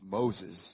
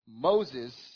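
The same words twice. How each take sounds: First: It is said in a put-on God voice. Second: It is said in the speaker's ordinary voice.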